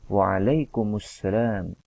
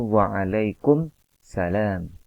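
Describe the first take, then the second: First: The m takes a u, linked into salam. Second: The m ends the word with no vowel. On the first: The speaker calls it right. "Yang tepat adalah" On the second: The speaker calls it wrong. "kurang tepat dalam melafazkannya"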